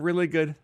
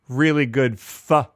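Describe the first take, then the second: First: The final word comes after a pause, very quietly. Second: The final word is punched out loudly. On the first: "you had a pause and you made a point to do it really quietly" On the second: "You don't have to really punch the word pho like that"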